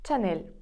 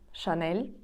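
First: The word begins with a ch sound. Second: The word begins with an sh sound. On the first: "Так як пишеться, так і читається" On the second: "ми його називаємо"

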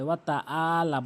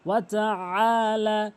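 First: A plain glottal stop comes before the vowel. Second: A throaty ain comes before a lengthened vowel. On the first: The speaker calls it wrong. "অনেক অধিকাংশ লোক ওয়াতা আলা বলে, বলা যাবে না" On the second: The speaker calls it right. "এখানে আইনের উচ্চারণ করতে হবে এবং একালিফ টেনে পড়তে হবে"

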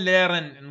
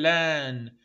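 First: The r sound is pronounced after the vowel. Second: The r sound is dropped after the vowel. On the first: The speaker calls it wrong. "ما نقول ليرن" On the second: The speaker calls it right. "نقول لان"

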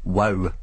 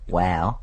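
First: The word is said in a Scottish accent. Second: The word is said in an Australian accent. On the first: "Doesn't sound so good in a Scottish accent" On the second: "What about Australian?"

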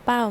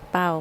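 First: The syllable is said with a falling tone. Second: The syllable is said with a low tone. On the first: "ไม่โท" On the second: "ไม่เอก"

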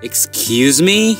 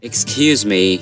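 First: It is said in a questioning, rising tone. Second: It is said in a soft, apologetic tone. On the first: The speaker did not catch what was said. "কি বললেন?" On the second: The speaker is asking for pardon. "মাফ করবেন"

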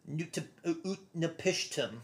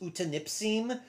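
First: The name sounds like Ut-na-pish-tim, with 'sh'. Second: The name sounds like U-ta-nip-sim, with no 'sh'. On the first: The speaker calls it right. "the correct pronunciation, or at least a better pronunciation" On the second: The speaker calls it wrong. "the wrong way that I have always said his name"

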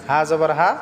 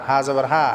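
The two takes are said the same way.

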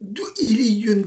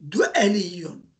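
First: The second syllable has an i vowel. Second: The second syllable has an e vowel. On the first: The speaker calls it wrong. "Bunda da du'iliyyun değil" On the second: The speaker calls it right. "aynın kesresini nispette fetha'ya dönüştüreceğiz"

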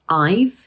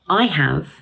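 First: Have is reduced to a V sound. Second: Have is said as a full word.

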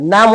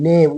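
First: The vowel is a long ah sound. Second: The vowel is an ay sound. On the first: The speaker calls it wrong. "नाम होते काय नाही" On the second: The speaker calls it right. "उच्चार आपल्याला नेम करायचा आहे"

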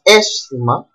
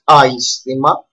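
First: The first vowel is a single 'eh' sound. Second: The first vowel is a gliding 'ai' sound. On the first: The speaker calls it right. "but aisthema" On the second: The speaker calls it wrong. "not aisthema"

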